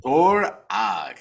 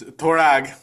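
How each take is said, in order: First: "Torag" drawn out as two syllables, "Tor... ag"; syllable-by-syllable demo. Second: "Torag" said as one firm word; supply the name "Torag" plainly and surely; "Torag" with a short final "ag"; pronunciation correction. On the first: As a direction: sound out "Torag" slowly for a learner. Sounding out name for co-host. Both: Shown as a demonstration.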